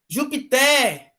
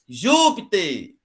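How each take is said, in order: First: The stress is on the last syllable. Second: The stress is on the first syllable. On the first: The speaker calls it wrong. "ela tem a última sílaba mais forte" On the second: The speaker calls it right. "tem a antepenúltima mais forte"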